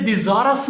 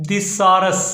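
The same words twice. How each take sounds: First: "थिसॉरस" as thi-ZAA-rus, with a z; the faulty thi-ZAA-rus for "थिसॉरस"; mispronunciation. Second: "थिसॉरस" as thi-SAW-rus, with an s; correct pronunciation. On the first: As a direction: say "थिसॉरस" with a buzzing z for the s. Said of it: "इसे थिसॉरस नहीं पढ़ना". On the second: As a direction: say "थिसॉरस" slowly with a hissed s in the middle. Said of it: "इसकी जो सही pronunciation है". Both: Shown as a demonstration.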